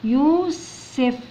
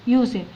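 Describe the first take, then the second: First: يوسف split slowly into yuu and sef; sounded out slowly. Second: Said in the usual way. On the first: Shown as a demonstration. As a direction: stretch the first syllable of يوسف, then add sef. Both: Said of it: "ندخل على الإس".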